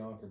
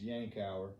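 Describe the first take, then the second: First: The word is said with two syllables. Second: The word is said with three syllables. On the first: This is the local Southern way of saying it. The speaker calls it wrong. "in the southern states, so we call it a Yonker" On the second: This is the correct way of saying it. The speaker calls it right. "the correct pronunciation is Yankauer"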